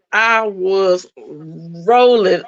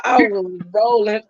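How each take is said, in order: First: "rolling" stretched long and slow; drawn out. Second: Said in the usual way. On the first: Real, not acted. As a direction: savor each word of "I was rolling".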